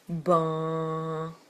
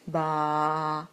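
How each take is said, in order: First: The vowel is somewhat nasal. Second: The vowel is wide open and oral. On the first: "une voyelle un petit peu plus nasale" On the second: "un a, qui est donc une voyelle très ouverte"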